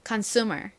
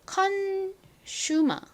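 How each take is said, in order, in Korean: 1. 끝에 R 소리가 나요. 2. 끝에 R 소리가 안 나요. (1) "미국식으로는 우로 발음됐지만" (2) "영국식 그리고 한국식으로는 ... 끝에 R 발음을 하지 않아요"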